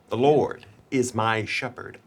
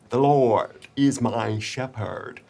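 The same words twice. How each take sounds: First: The words are articulated in a normal way. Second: The words are over-articulated with a wide-open mouth.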